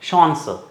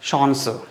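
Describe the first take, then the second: First: The word is pronounced the German way. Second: The word is pronounced the German way.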